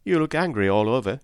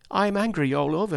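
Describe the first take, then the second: First: Said in the usual way. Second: High-pitched indignant retort; mildly heated, pitch jumping up; roused anger. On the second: A narrator's reading. Joe answering John on his anger, roused. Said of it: "wonderful to see him so roused".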